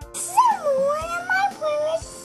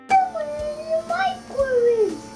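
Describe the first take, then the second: First: It is said in a small, little voice. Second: It is said in a medium voice.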